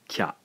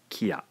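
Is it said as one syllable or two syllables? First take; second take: one; two. First: It is said as one blended syllable. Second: It is said as two separate syllables. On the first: "we have a single syllable now, not two syllables" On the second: "therefore this is a two-syllable word"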